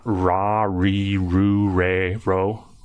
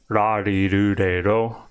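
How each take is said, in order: First: The R is a hard, English-style R. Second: The R is a soft, D-like tap. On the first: The speaker calls it wrong. "it's not a hard R, so not" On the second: The speaker calls it right. "the Japanese R sounds like a soft D"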